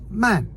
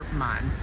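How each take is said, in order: First: The syllable is said with the fourth tone. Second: The syllable is said with the third tone. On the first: It means slow. "which is fourth tone" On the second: It means full. "That was third tone"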